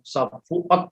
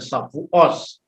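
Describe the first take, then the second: First: The word ends with a T sound. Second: The word ends with an S sound.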